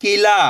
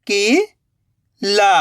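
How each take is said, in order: First: "किला" joined in one go, no gap; blended word. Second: "किला" slowly split, rising "ki", long pause, "la"; split into syllables. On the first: Teacher giving learners the result, "किला" blended. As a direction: say "किला" whole, short i. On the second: Teacher building the word for learners, "किला" in slow pieces. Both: Shown as a demonstration. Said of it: "तो मिलके बन जाएगा".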